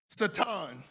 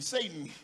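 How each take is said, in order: First: The name is said with a Hebrew pronunciation. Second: The name is said with the usual English pronunciation.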